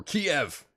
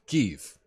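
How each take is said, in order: First: Kiev said as "kee-EV"; Kiev in two syllables. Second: Kyiv said as "keev"; Kyiv in one syllable. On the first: Host jokingly offers the rejected name, Kiev as kee-ev. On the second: Host corrects himself on the city's name, Kyiv as keev. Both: Shown as a demonstration. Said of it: "Nope, not Kiev".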